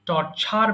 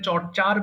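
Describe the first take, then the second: First: The middle ch sound is breathy and aspirated. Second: The middle ch sound is plain and unaspirated. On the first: The speaker calls it right. "এটাকে ছ বলবেন, চ বলবেন না" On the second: The speaker calls it wrong. "এটা চর্চার বলতাম"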